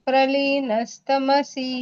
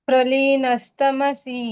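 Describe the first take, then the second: The two takes are said the same way.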